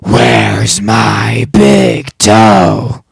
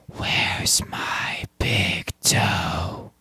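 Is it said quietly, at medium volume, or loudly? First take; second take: loud; quiet. First: It is said loudest of all. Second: It is said quietly.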